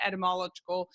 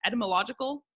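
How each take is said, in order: First: Etymological garbled as et-uh-MOL-uh-kul; stumbled pronunciation. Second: Etymological said in full, et-uh-muh-LOJ-ih-kul; carefully retry etymological with the beat on LOJ; corrected pronunciation. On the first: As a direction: trip over etymological, losing its "oj" sound. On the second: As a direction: etymological with every syllable in place, stressed on LOJ. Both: Real, not acted. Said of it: "I think that one's right".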